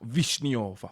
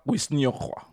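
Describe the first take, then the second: First: The word begins with a V sound. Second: The word begins with a W sound. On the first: The speaker calls it right. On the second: The speaker calls it wrong. "I'm going to try and pronounce it"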